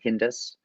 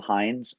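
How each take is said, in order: First: The name is said as two syllables. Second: The name is said as one syllable. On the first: The speaker calls it wrong. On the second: The speaker calls it right.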